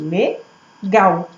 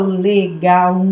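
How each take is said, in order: First: "legal" as le, pause, gal, ending in one beat; two-syllable split. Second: "legal" drawn out as le-ga-u, final u separate; slow "legal" with an extra beat on the u; wrong syllable split. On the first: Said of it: "eu falo legal". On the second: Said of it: "Eu não falo legal". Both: Shown as a demonstration.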